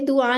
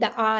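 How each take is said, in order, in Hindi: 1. पहला स्वर 'u' ध्वनि है। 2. पहला स्वर 'a' ध्वनि है। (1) "ये दुआ नहीं है" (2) "दआ है"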